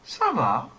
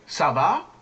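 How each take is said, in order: First: The pitch falls at the end. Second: The pitch rises at the end. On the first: It answers that one is fine. "You can answer ça va" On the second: It asks how someone is. "Much depends on the tone"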